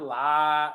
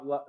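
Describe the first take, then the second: First: The syllable is hit hard and forcefully. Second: The syllable is said lightly and softly. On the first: The speaker calls it wrong. "you don't hit it too hard" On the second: The speaker calls it right. "la not la"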